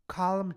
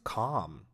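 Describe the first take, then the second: First: The L in calm is pronounced. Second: The L in calm is silent. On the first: The speaker calls it wrong. "Let's look at a scenario where the word is used incorrectly" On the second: The speaker calls it right. "The word is calm"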